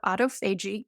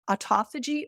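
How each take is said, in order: First: "autophagy" as two parts, auto-FAY-jee; second pronunciation variant. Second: "autophagy" stressed on the second syllable, aw-TOFF-uh-jee; first pronunciation variant. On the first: Guest offers the other way to say "autophagy", as auto-FAY-jee. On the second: Guest offers one of two ways to say "autophagy", stressing TOFF. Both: Shown as a demonstration. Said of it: "You can say it either way".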